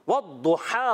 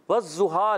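First: The letter is pronounced as a heavy emphatic d. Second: The letter is pronounced like a z sound. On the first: The speaker calls it right. "والضحا ہوتا ہے" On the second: The speaker calls it wrong. "زواد پڑھنا یہ حرام ہے"

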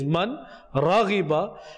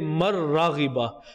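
First: The n sound is pronounced clearly before the r. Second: The n sound is silent and merges into the r. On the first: "The first phrase is man raghiba" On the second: "if you want to read it fluently, then you can also say mar raghiba. So the noon becomes silent. It gets merged into the ra"

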